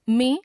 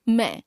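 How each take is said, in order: First: मैं as "men" with closed nasal e; mispronounced ai. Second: Said in the usual way. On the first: Shown as a demonstration. Teacher showing a common error, मैं with e for ai. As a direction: put "e" for "ai" in मैं. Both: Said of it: "ए, ऐ संबंधी अशुद्धियां".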